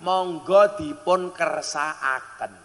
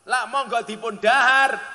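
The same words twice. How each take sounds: First: Slow, courteous monggo dipun kersakaken; refined polite offer. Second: Louder offer with dahar stressed. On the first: Host offering guest everything, slowly and politely. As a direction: draw it out like a gracious host. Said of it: "cara bahasa Jawane alus". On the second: Preacher showing wrong offer, dahar stressed. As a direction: lean on the word dahar to show only food. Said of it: "berarti sing mau pangan panganan tok". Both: Shown as a demonstration.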